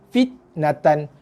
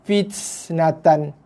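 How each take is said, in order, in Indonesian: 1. Huruf t dilepaskan tanpa hembusan napas. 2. Huruf t dilepaskan dengan hembusan napas berlebihan. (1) "kita baca dengan bunyi huruf T bahasa Melayu" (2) "melebih-lebihkan pula sifat huruf ta tu"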